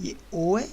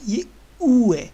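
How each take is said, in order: First: Said in the usual way. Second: ऊ stretched slow and louder; long ऊ. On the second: Shown as a demonstration. Teacher contrasting ओ with a long ऊ. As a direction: hold the ऊ longer.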